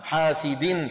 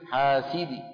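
First: The word ends with an i vowel plus n sound. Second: The word ends with a brief, faint i vowel. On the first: "التنوين يحذف" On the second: "ببعض الكسرة في المكسور"

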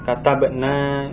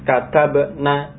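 First: The final vowel is held long. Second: The final vowel is kept short. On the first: We wrote. "itu nanya panjang" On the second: The women wrote. "maka dibaca pendek"

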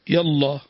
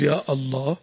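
First: Ya runs straight into Allah with no stop. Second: A glottal stop separates ya from Allah. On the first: "يلا همزة وصل" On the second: "هذه همزة همزة قطع"

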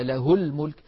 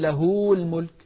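First: The vowel after the h is kept short. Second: The vowel after the h is lengthened. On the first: The speaker calls it right. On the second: The speaker calls it wrong.

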